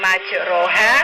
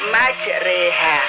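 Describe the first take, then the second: First: The vowel after r sounds like a full 'a'. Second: The vowel after r leans toward an 'e'. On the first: This is how it is written. "yang tulisannya adalah majroha" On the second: This is how it is actually recited. "tapi dibaca majreha"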